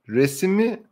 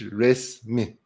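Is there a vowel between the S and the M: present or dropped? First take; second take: present; dropped. First: A vowel is heard between the S and M. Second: No vowel is heard between the S and M. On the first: This is the written form. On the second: This is the everyday spoken form.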